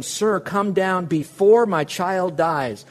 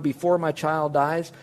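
First: Slow, with before drawn out and leaned on; pleading father, preacher underlines before, slowly; stress on before. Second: Before lifted, phrase slowed; stress on before. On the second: Preacher asks congregation to underline before, slowly. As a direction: hold up before as the key word. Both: Shown as a demonstration. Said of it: "Would you underline the word".

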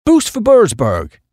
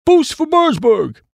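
First: Higher-pitched, drawn-out booster's motto; town slogan. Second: Very high, drawn-out reverent refrain; reverent echo. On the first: Acted. Chappie boosting his town to a visiting Duke, proud slogan. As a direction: voice the slogan high and slowly. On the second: A narrator's reading. Other chappies echo the town motto, reverently. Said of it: "said the other chappies reverently".

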